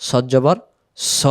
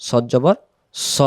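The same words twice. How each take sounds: No difference in how they are said.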